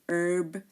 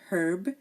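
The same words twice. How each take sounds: First: The H at the start is silent. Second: The H at the start is pronounced. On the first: "in American English they say herb. They don't pronounce the H here" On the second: "in British they say herb"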